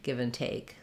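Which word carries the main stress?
take. The main stress falls on take. The speaker calls it right. "There is a little stress on the first part"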